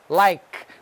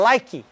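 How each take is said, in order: First: The word ends on the k sound. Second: The word ends with an extra vowel sound. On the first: The speaker calls it right. "que você não pronuncia o E no final" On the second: The speaker calls it wrong. "Nós brasileiros temos uma tendência de falar like"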